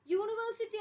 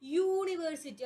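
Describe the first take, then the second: First: യൂണിവേഴ്സിറ്റി said as it is spelled, no y glide at the start; the mistaken യൂണിവേഴ്സിറ്റി; wrong pronunciation. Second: യൂണിവേഴ്സിറ്റി slow and clear, opening with a y sound; യൂണിവേഴ്സിറ്റി with a y sound first; correct pronunciation. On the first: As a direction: say യൂണിവേഴ്സിറ്റി the wrong way, opening on a bare vowel. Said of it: "യൂണിവേഴ്സിറ്റി എന്നല്ല". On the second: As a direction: say യൂണിവേഴ്സിറ്റി carefully, starting with a clear y. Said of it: "പകരം യൂണിവേഴ്സിറ്റി". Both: Shown as a demonstration.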